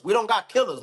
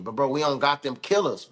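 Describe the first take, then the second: First: Higher and louder on "killers"; "killers" punched higher and louder; emphatic repeat. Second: Said in the usual way. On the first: Real, not acted. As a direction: hammer the point home, louder. Repeats the point with force.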